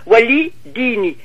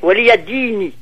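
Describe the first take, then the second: First: It is said as wali, with no ya syllable. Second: It is said as waliya, with a ya syllable. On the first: This is the usual everyday form. "on dirait actuellement Wali Dini" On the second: This is the form in the recited text. "j'ai Waliya Dini"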